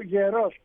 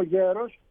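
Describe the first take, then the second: First: Γερός stressed on the final ός; ye-ROS for γερός; stress on last syllable. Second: Γέρος stressed on γέ; YE-ros for γέρος; stress on first syllable. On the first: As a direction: land the weight of γερός on its ending. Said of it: "Είτε πω". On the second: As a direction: put the weight of γέρος on its opening syllable. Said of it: "είτε πω". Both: Shown as a demonstration.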